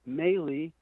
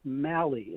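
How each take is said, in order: First: The first syllable does not sound like mallet. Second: The first syllable sounds like mallet. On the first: The speaker calls it wrong. "It's not Maley" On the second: The speaker calls it right. "It's Malley. ... You hit it with a mallet"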